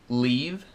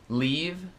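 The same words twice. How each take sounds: The two takes are said the same way.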